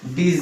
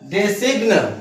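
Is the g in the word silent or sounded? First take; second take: silent; sounded. First: The g is silent, giving the usual form. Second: Every letter is sounded, including the g. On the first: It is the way people actually say it. "इसको हम बोलते हैं डिजाइन" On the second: It is read letter by letter as spelled. "इसका यदि हम शुद्ध अगर pronunciation करें"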